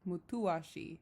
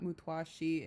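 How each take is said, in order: First: The middle has separate 'tu' and 'a' syllables. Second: The middle is squeezed into a quick 'twa' glide. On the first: The speaker calls it right. "it's mutuashi" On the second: The speaker calls it wrong. "I'm pronouncing this word incorrect. It's not mutwashi"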